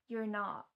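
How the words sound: An American accent, sounding like "yer nut". "in an American accent"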